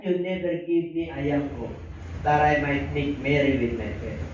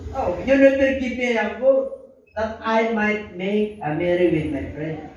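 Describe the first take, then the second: First: Said in the usual way. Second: Slow, higher whiny complaint; elder son whining to his father, slow and higher; sulking elder son. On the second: Acted. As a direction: drag it out like a resentful son. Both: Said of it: "sabi niya".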